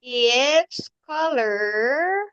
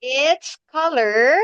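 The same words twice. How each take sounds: First: Drawn-out, very slow model; very slow repeat. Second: Slow, clear teacher model; slow model sentence. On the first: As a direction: stretch every word for the learner. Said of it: "teacher repeats model slower". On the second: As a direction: spell it out slowly for the child. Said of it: "teacher models answer slowly". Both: Shown as a demonstration.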